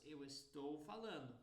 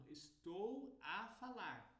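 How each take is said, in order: First: Said in the usual way. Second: Slow, with "a" set apart before "falar"; deliberate teacher demo stressing "a". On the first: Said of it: "no Brasil". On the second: Shown as a demonstration. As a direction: spell out "estou a falar", dwelling on the "a". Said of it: "mas em Portugal, eles falam".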